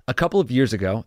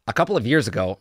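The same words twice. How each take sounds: First: It is read in the speaker's normal voice. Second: It is read in a put-on impression voice.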